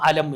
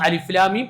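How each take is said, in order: First: The same letters are read as one word. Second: Each letter is named separately: alif, lam, mim. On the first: It opens the chapter beginning alam tara kayfa. "പിന്നെ ഒന്ന് അലം എന്നാണ്" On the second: It opens the second chapter. "ഒന്ന് അലിഫ്ലാമീം"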